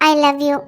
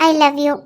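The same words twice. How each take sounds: No difference in how they are said.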